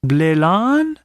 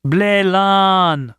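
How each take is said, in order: First: "Blélan" stretched, sweeping up into a question; long rising tune on "Blélan". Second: "Blélan" held long and high, then falling; long level "Blélan" ending in a fall; drawn-out agreement. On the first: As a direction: repeat "Blélan" slowly as a puzzled question. Native repeats the word as question. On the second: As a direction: confirm with a stretched, higher "Blélan". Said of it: "agreed Wilson". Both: A narrator's reading.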